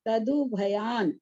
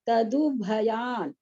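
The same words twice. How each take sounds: First: The word stops on the 'n' sound. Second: The word stops on the 'n' sound.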